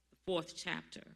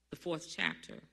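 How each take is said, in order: Both takes have the same delivery.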